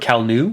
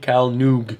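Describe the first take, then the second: First: The name ends without any g sound. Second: The name ends with a hard g sound.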